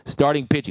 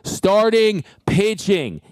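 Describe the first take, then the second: First: It is said at normal volume. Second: It is said louder.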